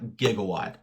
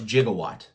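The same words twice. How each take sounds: First: It is said the everyday real-world way. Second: It is said the way the film says it. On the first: This is the common real-world word. The speaker calls it wrong. "not Gigawatt. I know a lot of people have been pronouncing it Gigawatt" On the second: This is the character's real name. The speaker calls it right. "This dude's name is Gigawatt"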